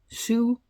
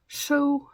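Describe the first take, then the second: First: The vowel sounds like 'oo', as in 'sue'. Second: The vowel sounds like 'oh', as in 'so'. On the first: The speaker calls it wrong. "I always thought it was sew" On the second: The speaker calls it right. "but you pronounce it as sew"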